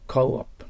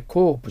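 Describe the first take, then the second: First: "コーオプ" with an "ou" glide, then a separate "op"; English co-op. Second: "コープ" run together with one long o; Japanese-style coop. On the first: Teacher corrects coop for students, clearly two-part English co-op. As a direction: sound out both vowels in "コーオプ". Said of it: "うが入らないといけません". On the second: Teacher rejects the common reading, long-vowel katakana pronunciation. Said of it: "じゃないんですよね". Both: Shown as a demonstration.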